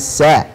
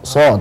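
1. Suku kata ini diucapkan ringan, dengan vokal terang. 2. Suku kata ini diucapkan berat, dengan vokal gelap. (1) "tipiskan ... tapi sa" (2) "Bukan wa arsala, so"

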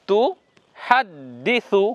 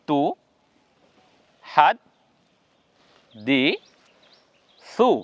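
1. শব্দাংশগুলো বিরতি ছাড়াই সহজভাবে একসঙ্গে জুড়ে বলা হয়। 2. শব্দাংশগুলো বিরতি দিয়ে আলাদা আলাদা করে বলা হয়। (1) "এটা একসঙ্গে লেগে উচ্চারণ হবে" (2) "একটা একটা করে উচ্চারণ করুন"

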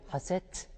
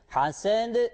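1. Kelime t sesiyle biter. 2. Kelime d sesiyle biter. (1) "buraya haset diyemezsin" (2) "Hasend dememiz gerekiyor"

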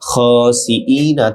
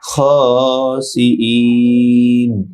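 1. শব্দটি n-এর পরে একটি হ্রস্ব স্বরধ্বনি দিয়ে শেষ হয়। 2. শব্দটি একটি দীর্ঘ স্বরধ্বনির পরে n দিয়ে শেষ হয়।

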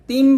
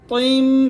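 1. t উচ্চারণ করা হয় হালকা ও পাতলা করে। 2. t উচ্চারণ করা হয় ভারী ও মোটা করে। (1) "তিম বলবেন না" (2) "তিম ত মোটা হবে"

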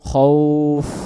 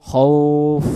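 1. শব্দটি বাতাস f-এর মতো বেরিয়ে গিয়ে শেষ হয়। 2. শব্দটি বাতাস f-এর মতো বেরিয়ে গিয়ে শেষ হয়।

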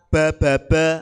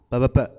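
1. Suku katanya dibaca dengan tempo sedang. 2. Suku katanya dibaca cepat, seperti disambung-sambung. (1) "bacanya jangan terlalu cepat" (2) "Jangan a a ba ba ba. Oh niku ampun"

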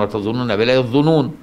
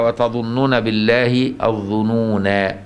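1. الكلمة الأخيرة تنتهي بصوت 'n' عادي وواضح. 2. الكلمة الأخيرة تنتهي بحرف المد الطويل 'a'. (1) "هي أصلا" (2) "ألحقت الألف بالظنون"

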